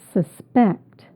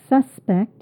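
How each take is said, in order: First: The stress is on the second syllable. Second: The stress is on the first syllable. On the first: It is the verb. "the stress on the second syllable" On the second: It is the noun. "if I said suspect, it would be a noun"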